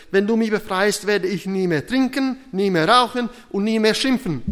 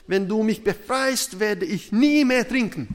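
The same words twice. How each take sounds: First: Loud, high acted begging, building through each promise; desperate shout. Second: Loud, high-pitched mock vow; pleading promise. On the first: Trapped man vows everything to God as train nears, desperate. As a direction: pile up the vows at full voice. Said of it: "schrie er wei-, verzweifelt". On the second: Trapped drunk promises God to quit drinking, pleading. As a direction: bargain urgently with God, acted out. Stuck man bargains with God.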